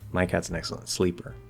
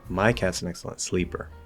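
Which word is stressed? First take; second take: sleeper; my. First: The stress falls on the word sleeper. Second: The stress falls on the word my. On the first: Sleeping, not hunting, is what the cat excels at. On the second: This particular cat differs from cats in general.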